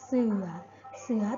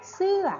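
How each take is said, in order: First: The word is said with a low tone. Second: The word is said with a falling tone. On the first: "เสือเอก" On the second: "โท"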